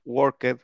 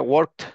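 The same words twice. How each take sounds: First: "worked" in two syllables, work-ked; ED pronounced fully. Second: "worked" in one syllable, ending -kt. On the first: Teacher giving the example to follow, "worked" with full ED syllable. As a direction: sound out the ED in "worked". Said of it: "pronuncien la E D como tal". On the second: Teacher showing what sounds crammed, "worked" ending in KT. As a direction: jam K and T together in "worked". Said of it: "como que no suena bien". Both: Shown as a demonstration.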